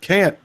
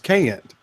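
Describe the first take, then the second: First: The word is said as one syllable. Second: The word is stretched into two syllables.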